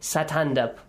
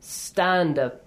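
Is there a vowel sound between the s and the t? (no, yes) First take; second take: yes; no. First: An extra vowel comes between the s and the t. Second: The s goes straight into the t. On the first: The speaker calls it wrong. "We don't have it" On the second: The speaker calls it right. "We can start with a silent letter. I mean without any vowel sound right after it"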